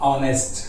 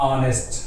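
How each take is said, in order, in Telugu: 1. ఈ పదం అచ్చు శబ్దంతో మొదలవుతుంది. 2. ఈ పదం అచ్చు శబ్దంతో మొదలవుతుంది.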